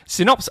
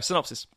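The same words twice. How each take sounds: First: It is said in a put-on comic voice. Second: It is said in the speaker's normal voice. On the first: It is a joke imitation. "Doing in the voice of old Toothy Bruce the whole time" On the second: It is said seriously. "I'm kidding"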